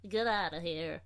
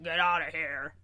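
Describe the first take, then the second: First: Gentler take on the cat; second cat voice. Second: Louder sassy cat voice; bossy cat, first version. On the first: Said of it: "the second one really kinda works". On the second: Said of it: "your cat now has two voices". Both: Shown as a demonstration.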